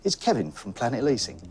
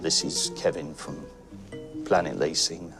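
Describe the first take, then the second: First: The voice sounds warm and smiling. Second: The voice sounds flat and downbeat. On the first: The speaker is happy in their work. The speaker calls it right. "someone who's smiling and you go" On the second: The speaker is unhappy in their work. The speaker calls it wrong. "If you're a bit downbeat and you say"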